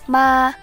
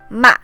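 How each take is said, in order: First: The pitch stays high and level. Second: The pitch drops sharply from high to low. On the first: "The first tone is high and level" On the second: "starts out high but drops sharply to the bottom"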